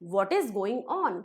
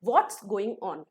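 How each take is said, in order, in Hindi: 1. 'What is' दो पूरे शब्दों की तरह बोला जाता है। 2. 'What is' एक ही अक्षर में बोला जाता है। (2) "What is going on को हम what's going on बोलेंगे. कैसे?"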